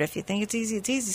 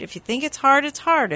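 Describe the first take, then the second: First: "easy" dropped much softer; easy, understated. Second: "hard" pitched higher, at normal volume; emphatic on HARD. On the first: Host showing how belief makes it easy, understated. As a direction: let "easy" fall away quietly at normal pitch. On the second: Host showing how belief makes it hard, emphatic. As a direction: lift the voice on "hard". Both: Shown as a demonstration.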